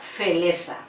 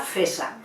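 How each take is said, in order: First: An extra vowel is inserted into the cluster. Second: The r sound is left out entirely. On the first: "sería añadir" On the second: "omite ese sonido, no sabe pronunciarlo y lo omite"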